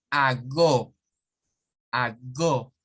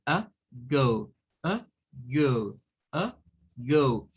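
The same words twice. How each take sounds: First: "a go" as open "ah-go"; full Spanish a and pure o in "a go"; "a go" read as Spanish, no glide; Spanish vowels. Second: "a go" as "uh... gohw"; short neutral "a", then long gliding "go"; "a go" with unstressed uh, English long O; English schwa. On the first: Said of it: "una A del español". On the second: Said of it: "aquí vamos a decir". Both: Shown as a demonstration.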